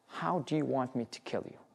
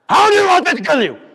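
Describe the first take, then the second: First: It is said quietly in a calm voice. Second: It is screamed very loudly. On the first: "with a very calm voice, just imagine it" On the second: "he screams so loud that every cell in prison have heard it"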